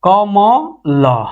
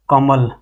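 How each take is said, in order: First: कमल stretched out very slowly; drawn out. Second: Said in the usual way. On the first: Shown as a demonstration. Teacher showing students the word कमल, very slowly. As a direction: draw out कमल, syllable by syllable. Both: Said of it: "चाहे और लिख दें".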